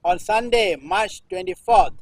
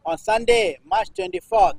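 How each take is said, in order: Both takes have the same delivery.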